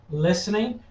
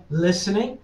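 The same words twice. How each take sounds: The two takes are said the same way.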